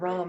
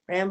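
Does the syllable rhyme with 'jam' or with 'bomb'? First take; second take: bomb; jam. First: The vowel is like the one in 'bomb'. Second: The vowel is like the one in 'jam'. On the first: "or Ram as in the R O R O M" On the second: "Ram like the, the animal with horns"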